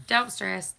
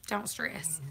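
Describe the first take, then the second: First: Said in the usual way. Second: Whispered reassurance; unvoiced hush, then repeat it aloud. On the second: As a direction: breathe it out soft and hushed. Repeated soothing to chat.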